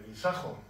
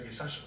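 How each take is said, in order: First: The consonant before the final o is a j sound. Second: The consonant before the final o is an s sound. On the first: The speaker calls it right. "se dice guisajo" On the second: The speaker calls it wrong. "No se dice guisaso"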